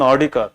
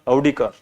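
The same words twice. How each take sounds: First: "Audi" opened with a plain long "ah"; Audi said as "ah-dee". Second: "Audi" opened with an "ow" glide; Audi said as "ow-dee". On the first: Teacher telling class about the girl's car, "Audi" said as "ah-dee". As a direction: say "Audi" with no "ow" glide, just "ah-dee". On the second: Teacher correcting the car name for class, "Audi" said as "ow-dee". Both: Shown as a demonstration. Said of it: "You pronounce it as Audi".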